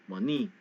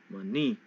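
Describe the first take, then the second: Both takes have the same delivery.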